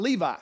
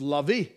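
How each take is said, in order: First: Levi as LEE-vye; English Levi. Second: Levi as LEH-vee; Spanish Levi. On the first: Preacher contrasting English and Spanish Levi. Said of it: "but it's not Levi". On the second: Preacher giving the Spanish Levi. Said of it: "it's not Levi". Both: Shown as a demonstration.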